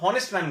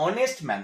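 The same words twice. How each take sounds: First: হনেস্ট man said with a sounded h at the start; wrong pronunciation with h. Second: অনেস্ট man said with a plain o and no h sound; silent h. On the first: Teacher showing students the wrong way, h sounded in হনেস্ট. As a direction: say হনেস্ট with a breathy h before the o. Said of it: "H এর উচ্চারণ যদি করতাম". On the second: Teacher giving students the correct form, silent h in অনেস্ট. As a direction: start অনেস্ট straight on the vowel, h dropped. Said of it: "আমরা বলি". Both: Shown as a demonstration.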